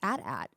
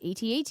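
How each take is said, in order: First: It is said as two short words. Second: It is said as spelled-out letters. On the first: "people who pronounce it at at" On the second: "no, it's AT-AT"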